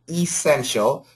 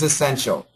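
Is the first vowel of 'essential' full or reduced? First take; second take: full; reduced. First: The first vowel is a full, clear E. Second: The first vowel is a short, reduced schwa. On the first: "The perfect pronunciation is essential" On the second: "most Americans are going to have a schwa sound, very short"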